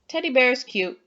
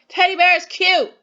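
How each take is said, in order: First: It is said calmly, with a falling, flat tune. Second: It is said with strong, excited emotion throughout. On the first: It is a general statement. "just saying a general statement with a period" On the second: The speaker feels strong emotion. "saying it with some emotion"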